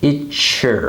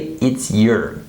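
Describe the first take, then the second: First: The word your is reduced and unstressed. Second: The word your is pronounced fully and clearly. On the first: The speaker calls it right. "we say something kind of like it's your" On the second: The speaker calls it wrong. "we don't say it's your"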